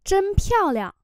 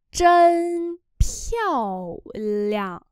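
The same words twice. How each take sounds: First: Said in the usual way. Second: Chân piao liang very slow; slow demo. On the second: Shown as a demonstration. (đọc rất chậm Chân piao liang) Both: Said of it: "Xinh quá".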